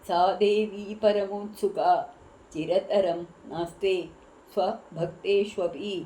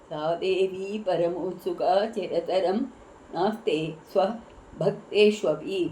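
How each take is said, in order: Both takes have the same delivery.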